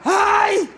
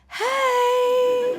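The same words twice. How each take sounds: First: It is said forcefully, sounding threatening. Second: It is said in a perky, energetic mum voice.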